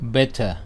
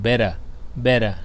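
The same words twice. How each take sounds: First: It is said in a British English accent. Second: It is said in an American English accent. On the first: "อันนี้สำเนียงภาษาอังกฤษ" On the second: "ถ้าสำเนียงคนอเมริกันจะออกเป็น"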